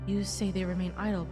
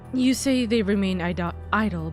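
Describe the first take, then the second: First: The voice has reverb echoing around it. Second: The voice is dry with no reverb. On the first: The speaker calls it wrong. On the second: The speaker calls it right.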